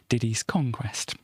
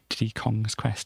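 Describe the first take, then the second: First: The s sound comes right after Diddy. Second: The s sound comes right after Kong. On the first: The title makes a pun on conquest. The speaker calls it right. "It's Diddy's Conquest" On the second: The title is read as a plain possessive of Diddy Kong. The speaker calls it wrong. "previously I'd read it, read it as"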